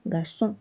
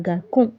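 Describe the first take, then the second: First: "garçon" with a soft s, as "gar-son"; soft c with cedilla. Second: "garçon" with a hard k, as "gar-kon"; wrong hard-c version. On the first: Teacher correcting for the cedilla, soft s in "garçon". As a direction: say "garçon" with s in the middle. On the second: Teacher showing what not to say, hard k in "garçon". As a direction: put a k sound in the middle of "garçon". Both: Shown as a demonstration. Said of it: "because of this accent".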